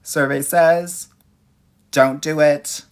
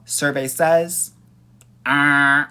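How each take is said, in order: First: Slow, loud game show reveal; game show host. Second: Slow, loud announcer "survey says"; game show host. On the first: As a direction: boom it out like a quiz host. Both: Pretend.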